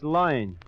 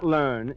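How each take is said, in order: First: It is said with a Brooklyn accent, like loin. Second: It is said with standard American pronunciation. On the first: The speaker calls it right. "In Brooklyn, it's loin" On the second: The speaker calls it wrong. "Not learn"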